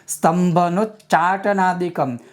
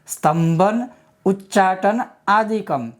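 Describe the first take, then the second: First: The words are run together into one. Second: The words are said as separate words. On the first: "संधि विच्छेद किए बिना" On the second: "संधि विच्छेद"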